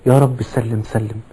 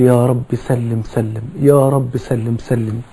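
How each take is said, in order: First: Slow, soft plea for safety; earnest prayer. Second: Very slow, soft repeated plea; pleading prayer. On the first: Real, not acted. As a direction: pray it quietly and slowly. (دعاء خاشع هادئ وبطيء) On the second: Retold or imitated. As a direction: draw out each word like a quiet supplication. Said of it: "وعمال يدعو ويقول". (النبي يدعو لأمته: رجاء بطيء خافت)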